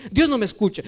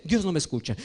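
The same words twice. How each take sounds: First: Said in the usual way. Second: Soft, sulky complaint that God won't listen; dejected complaint. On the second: Retold or imitated. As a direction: mutter it like a let-down believer. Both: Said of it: "y dice".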